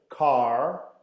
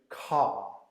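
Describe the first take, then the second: First: The final R sound is clearly pronounced. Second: The final R sound is left out. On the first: "Eu coloco o R. Estão a ver aquele R dentro da boca? ... Esta é a pronúncia americana" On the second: "Os britânicos dizem ... E não pronunciam aquele R no final"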